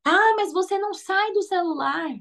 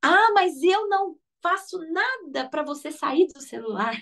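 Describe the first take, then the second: First: Higher-pitched mock complaint; nagging parent. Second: Slow, higher mock self-reproach; self-blaming parent. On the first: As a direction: nag the kid about the phone like a tired parent. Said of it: "simplesmente falar assim". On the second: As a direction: admit it slowly, catching your own fault. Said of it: "pensar no seguinte".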